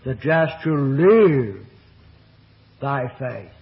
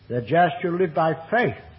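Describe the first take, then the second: First: The stress falls on the word live. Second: The stress falls on the word faith. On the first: Faith is what sustains the life itself. "the emphasis on the third word of the statement" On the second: Faith, not law, is the way to live. "contrasted with law"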